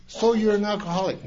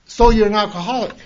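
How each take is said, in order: First: Said in the usual way. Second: Remembered challenge. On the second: Retold or imitated. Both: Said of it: "It's like something just slapped me".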